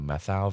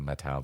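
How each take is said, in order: First: The middle is said as one 'th' sound. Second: The middle is said as separate 't' and 'h'. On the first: The speaker calls it wrong. "I've been pronouncing it wrong for just about all of my life" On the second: The speaker calls it right. "they said it's Methow"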